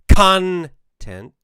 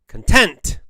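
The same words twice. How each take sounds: First: The stress is on the first syllable. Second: The stress is on the second syllable. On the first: "put the stress, the emphasis at the beginning of the word" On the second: "put the stress on the second half of the word"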